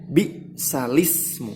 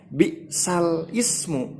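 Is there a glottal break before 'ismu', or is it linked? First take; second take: linked; break. First: The lam links smoothly into ismu without break. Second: A glottal break separates the lam from ismu. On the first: The speaker calls it right. "melainkan bi'salismu" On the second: The speaker calls it wrong. "dibacanya bukan bi'sal ismu"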